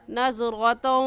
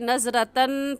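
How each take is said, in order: First: The final n merges nasally into the next sound. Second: The final n sound is clearly pronounced. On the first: The speaker calls it right. "इदगाम करेंगे और ऐसे पढ़ेंगे" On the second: The speaker calls it wrong. "नज़रतन पढ़ना गलत होगा"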